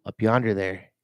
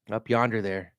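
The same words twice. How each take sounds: First: Lightly drawled Southern up yonder there; mild Southern twang, unhurried. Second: Light Southern drawl on up yonder there; a hint of a Southern drawl, drawn out. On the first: Vlogger repeats the phrase in a light Southern drawl. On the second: Vlogger heading to Albert Lea tries a light Southern drawl. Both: Shown as a demonstration. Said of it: "I'm using a lot of Southern drawl".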